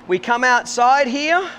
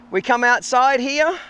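Both takes have the same delivery.

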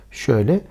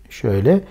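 The two takes are said the same way.

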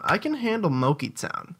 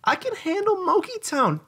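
First: Said in the usual way. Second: Put-on much higher, childish; high kid voice. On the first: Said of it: "repeat in high voice". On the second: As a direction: squeak it like a kid.

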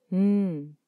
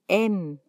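First: M as a held hum "mmm"; sustained m, no vowel, for M; letter sound M. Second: Said in the usual way. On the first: Shown as a demonstration. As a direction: hum the bare M with lips closed. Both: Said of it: "se pronuncia".

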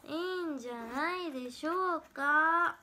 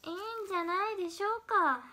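First: Slow, drawn-out mimicked line; slow mimicry take. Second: Pitched up, mock-imitating delivery; higher mimicry take. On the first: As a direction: stretch it out, in imitation. (ゆっくり伸ばしたモノマネ口調) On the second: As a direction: lift the whole line higher, playful imitation. (高めの声でふざけたモノマネ) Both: Shown as a demonstration. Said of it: "モノマネは勝手にやってるだけだよ".

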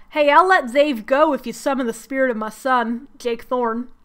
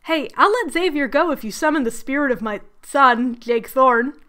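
First: Bad Southern accent. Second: Said in the usual way. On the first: Lucifer offering a deal, in a bad Southern accent. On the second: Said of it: "here's what Lucifer says".

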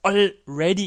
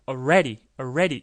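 First: Already with the L fully sounded, "all-REH-dee"; standard full already. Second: Already as "uh-REH-dee", no L heard; reduced L in already. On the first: Teacher gives the by-the-book already, L kept. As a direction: hold the L in "already" before the R. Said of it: "이렇게 발음을 하는 것이 원칙인데". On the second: Teacher shows how Americans often say already, L dropped. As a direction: swallow the L in "already" into a short "uh". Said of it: "이렇게 그냥 already처럼 발음을 많이 합니다". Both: Shown as a demonstration.

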